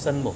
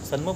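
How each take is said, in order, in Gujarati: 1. n અડધો છે, એક શબ્દમાં જોડાયેલો. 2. n અડધો છે, એક શબ્દમાં જોડાયેલો.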